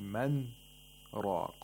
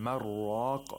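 First: A brief breathless stop follows the first word. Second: The two words run together without a stop. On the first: The speaker calls it right. "We hold our breath on the nun sakina" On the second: The speaker calls it wrong. "Instead of saying man raq"

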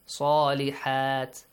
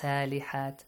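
First: The first S is heavy and emphatic. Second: The first S is light and plain. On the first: The speaker calls it right. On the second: The speaker calls it wrong.

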